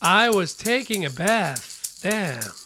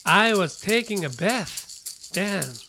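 The two takes are said the same way.

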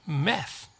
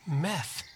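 No difference in how they are said.

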